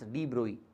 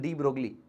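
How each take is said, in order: First: The name is said in its original pronunciation. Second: The name is said the common Indian way. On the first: The speaker calls it right. "his correct pronunciation is de Broglie" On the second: The speaker calls it wrong. "Indians call him de Broglie"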